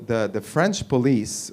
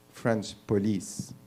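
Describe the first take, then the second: First: Said in the usual way. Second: French police said with a French accent, Frahnsh poh-LEESE. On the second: Shown as a demonstration. Comic says police as if he were French, French accent. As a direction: say French police the way a French person would. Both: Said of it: "if you're French".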